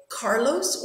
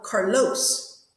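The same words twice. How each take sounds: First: CAR-los, weight on the first syllable; first-syllable stress. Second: Car-LOS, weight on the second syllable; wrong last-syllable stress. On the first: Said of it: "so the stress is on the car". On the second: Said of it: "we say the first one". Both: Shown as a demonstration.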